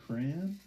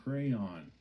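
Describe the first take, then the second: First: "Crayon" squeezed to cran, rising; crayon said one syllable. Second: "Crayon" as cray-on, falling; crayon said two syllables. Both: Shown as a demonstration. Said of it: "I don't even know how I say it".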